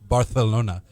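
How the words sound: The c is lisped like th, Spanish-style.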